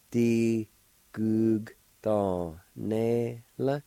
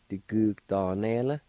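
First: "Di gug ton ne la" slowly, each syllable apart. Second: Said in the usual way. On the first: Shown as a demonstration. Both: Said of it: "like this".

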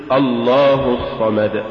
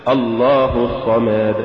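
First: الله الصمد chanted slowly with crisp short vowels; careful Quranic chant; correct recitation. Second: الله الصمد with an overlong vowel adding a letter; wrong drawn-out chant; faulty recitation. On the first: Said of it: "قل". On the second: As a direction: stretch the vowels of الله الصمد too far. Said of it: "ولا تقل". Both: Shown as a demonstration.

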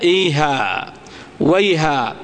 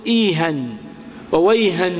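First: إيها and ويها ending in long "-aa", no n; pausal alif. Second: إيها وويها ending in "-an": "iihan, wayhan"; tanween pronounced. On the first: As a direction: stop on a drawn-out "iihaa, wayhaa". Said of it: "نقف عليها". (الوقف على إيها وويها بألف ممدودة) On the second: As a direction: sound a final n on both إيها and ويها. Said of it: "مع فتح الإعراب أو غير إعراب". (نطق إيها وويها بالتنوين) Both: Shown as a demonstration.

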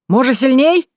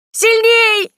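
First: Raised voice, pitched up into a question; eager loud offer to go harder; loud high question. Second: Very high, loud shriek; piercing scream for more; squeal. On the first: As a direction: call it out high, rising sharply at the end. Teasing offer to whip harder. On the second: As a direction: squeal it out at full pitch, falling at the end. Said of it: "визжала та". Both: A narrator's reading.

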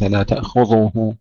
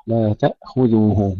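First: لا تأخذه with ذ made heavy like ظ; wrongly thickened dhal. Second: Slow لا تأخذه with a thin ذ; light dhal. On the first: Teacher shows the mistake, heavy dhal. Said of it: "وليس لا تأخذه". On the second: Teacher models the right recitation, light dhal. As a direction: keep the ذ in تأخذه light, like "dhu". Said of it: "ثم الذال مرققة". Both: Shown as a demonstration.

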